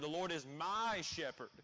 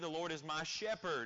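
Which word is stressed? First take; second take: my; shepherd. First: The stress falls on the word 'my'. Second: The stress falls on the word 'shepherd'. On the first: He belongs to me personally, so I am saved. "you're placing an emphasis on the word "my" there" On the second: God is the one who cares for and guides us. "we place an emphasis on the shepherding of God in our lives"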